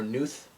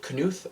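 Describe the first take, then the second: First: "Knuth" with the K silent; "Knuth" in one syllable, starting on N. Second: "Knuth" with a sounded K; "Knuth" in two syllables, starting kuh-; K pronounced. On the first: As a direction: say "Knuth" as NOOTH. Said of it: "is it Knuth or Knuth?". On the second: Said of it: "funny to say it like that". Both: Shown as a demonstration.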